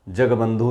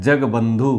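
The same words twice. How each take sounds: The two takes are said the same way.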